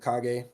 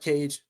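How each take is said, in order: First: It does not sound like the English word cage. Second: It sounds like the English word cage. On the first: The speaker calls it right. "It's I am the Kage" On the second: The speaker calls it wrong. "not Cage. Please don't say it"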